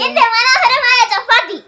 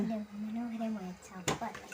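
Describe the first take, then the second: First: The phrase is spoken loudly and clearly. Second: The phrase is spoken softly and quietly. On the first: The speaker calls it right. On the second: The speaker calls it wrong.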